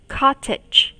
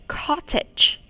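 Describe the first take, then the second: First: Said in the usual way. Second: Breathy unvoiced Cottage; whispered word. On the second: Shown as a demonstration. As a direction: whisper Cottage, then say it aloud. Teacher whispers word before repeat.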